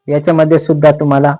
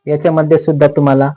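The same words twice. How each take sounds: The two takes are said the same way.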